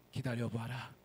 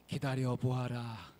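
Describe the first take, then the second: First: Lower, quieter, lightly rising spirit voice; a hint of a calm old sage; mountain god. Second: Slow, lower, stately spirit voice; mountain god. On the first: Mountain god telling him to wait again, low and soft. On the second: Acted. Mountain god telling the woodcutter to wait, slow and low. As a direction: draw out the command like a solemn elder.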